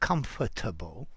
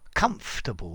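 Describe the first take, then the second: First: Every syllable of the word is pronounced fully. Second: A middle syllable is dropped from the word. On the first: The speaker calls it wrong. "not comfortable" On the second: The speaker calls it right. "or comfortable"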